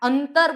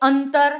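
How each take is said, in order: First: The nasal before the t is clearly sounded. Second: The nasal before the t is clearly sounded.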